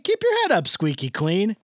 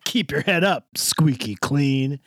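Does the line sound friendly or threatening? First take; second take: friendly; threatening. First: It is said in a light, friendly way. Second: It is said in a menacing, threatening way. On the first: It is a cheerful greeting. "I changed the cadence. And it doesn't sound like a threat. It sounds like" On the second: It is a threat. "If I said it like the character in the episode says it, it would be like"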